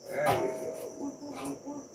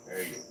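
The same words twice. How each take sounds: First: Much higher, slow sing-song coo; drawn-out, high, baby-talk croon. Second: Said in the usual way. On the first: Acted. Cooing to a snake.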